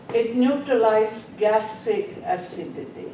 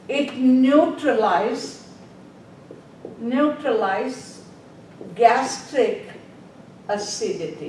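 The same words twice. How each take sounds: First: Said in the usual way. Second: Word by word, slowly, for note-taking; slow dictation. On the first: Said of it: "What does it do?". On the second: Shown as a demonstration. Teacher dictating to nursing students, slow and spaced. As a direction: spell it out slowly so they can write. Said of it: "Write down the".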